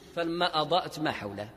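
The voice stops after the phrase ma hawlahu. The sense is cut before the statement is complete. The speaker calls it wrong. "هذا وقف باطل"

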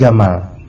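The word begins with a hard G sound. This is how it is said in Egypt.

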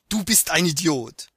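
It is said bluntly and harshly, like an insult. It comes across as a real, hurtful insult. "hört sich dann eben ja geschrieben, ... zack, boom"

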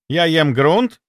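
It sounds like a question. Something is being asked. "Это вопрос"

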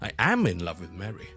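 The word am is loud, strong and high.

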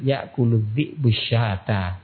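The words run together in one flowing stretch.

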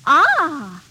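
It sounds pleased.

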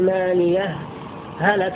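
A brief pause separates the two words. "إظهار هاء ماليه وذلك بسكتة لطيفة"

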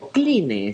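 The name is pronounced the Spanish way.

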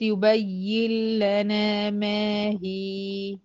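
The recitation stops at the end of the word. "وقفت على هي"

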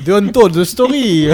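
It is said with a Marseille French accent. "Tu veux pas faire l'accent marseillais du coup?"

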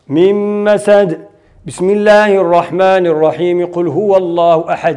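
It pauses only before the basmala, then continues. The surah ends separately and the basmala joins the next surah. "نقف في آخر السورة ونبتدأ البسملة بأول السورة الأخرى"

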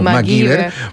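The name is said with a Spanish pronunciation. This is how people here said the name. "Aquí lo conocíamos como MacGyver"

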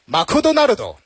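It is said with a Japanese-style pronunciation. "如果是日式英语的话"

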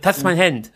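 It is said imitating another man's voice.

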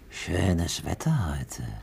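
It sounds sinister and menacing. The speaker is a predator heading to a playground. "Ein Kindermörder, der auf den Spielplatz geht"

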